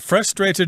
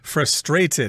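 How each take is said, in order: First: The stress is on the first syllable. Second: The stress is on the second syllable. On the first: This is how Americans say it. "Frustrated is the American pronunciation" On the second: This is how people in England say it. "in England they will accent the second syllable"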